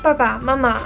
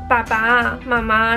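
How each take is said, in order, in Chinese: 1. 第二个音节很轻，是轻声。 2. 第二个音节保留原调。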